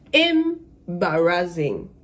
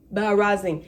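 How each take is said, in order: First: Very slow, stretched scornful Embarrassing; drawn-out scorn. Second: Said in the usual way. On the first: Retold or imitated. Passenger shaming the gate agent, slow scornful Embarrassing. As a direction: drag out Embarrassing with contempt. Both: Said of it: "I started cussing him out".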